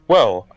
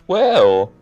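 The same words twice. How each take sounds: First: It is said in the speaker's natural voice. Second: It is said in a put-on character voice.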